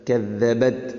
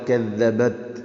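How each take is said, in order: The two takes are said the same way.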